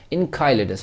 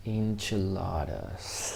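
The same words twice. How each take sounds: First: Enchiladas said as in-KAI-le-das, guessing at the sound; a fumbled first reading of Enchiladas; first try at the word. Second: Enchiladas said slowly and softly, en-chi-LA-das with a ch sound; slow careful Enchiladas, learning the word; careful slow repeat. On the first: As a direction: stumble through Enchiladas with a hard k. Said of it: "How to pronounce this?". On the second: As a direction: copy Enchiladas syllable by syllable after the tool. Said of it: "You're gonna say it slowly also". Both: Shown as a demonstration.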